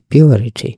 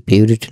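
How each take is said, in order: First: পিউরিটি stretched to "pee-o-a-ri-tee"; correct longer pronunciation. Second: পিউরিটি short, as "pew-ri-tee"; wrong pronunciation. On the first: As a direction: add a glide vowel before r in পিউরিটি. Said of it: "উচ্চারণটা একটু লম্বা আছে". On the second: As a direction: say পিউরিটি compactly, no extra vowel before r. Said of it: "উচ্চারণটা কিন্তু পিউরিটি না". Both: Shown as a demonstration.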